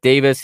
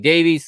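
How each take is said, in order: First: It is said the British way, like 'Davis'. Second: It is said the American way, like 'Davies'.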